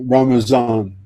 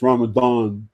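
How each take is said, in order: First: It is said the Urdu and Persian way. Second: It is said the original Arabic way. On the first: This is how Urdu speakers say it. "You say uh, uh, Ramazan" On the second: This is the original Arabic form. "It's really it's Ramadan"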